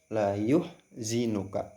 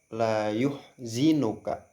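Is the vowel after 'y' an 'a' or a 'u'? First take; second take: u; u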